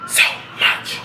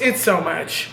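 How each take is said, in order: First: Whispered echo. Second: Said in the usual way. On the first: Real, not acted. Overwhelmed, echoed softly.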